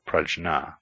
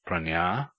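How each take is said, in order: First: The middle cluster sounds like jn. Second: The middle cluster sounds like ny. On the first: The speaker calls it wrong. "never as prajna" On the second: The speaker calls it right. "is pronounced pranya"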